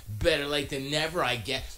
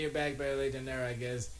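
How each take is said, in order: First: Slightly higher, backhanded snide read; snarky mock read. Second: Said in the usual way. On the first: Shown as a demonstration. Mocking how a viewer's backhanded comment sounds, snide. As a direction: read it as the smug chatter would. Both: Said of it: "Let me read it how you sound".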